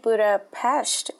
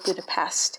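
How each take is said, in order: First: The name is said with Hungarian pronunciation. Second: The name is said with American English pronunciation. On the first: This is how locals say the name. The speaker calls it right. "that's actually how you say" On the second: This is how Americans say the name. The speaker calls it wrong. "what we Americans might call"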